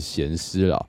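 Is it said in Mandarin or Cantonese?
Mandarin. It is said in Mandarin.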